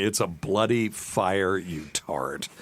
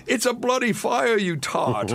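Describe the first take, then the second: First: Said in the usual way. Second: High-pitched, hammed-up British accent; indignant Brit, badly imitated. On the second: Hotel guest banging on the bus, hammed-up British accent. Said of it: "I can't do a British accent".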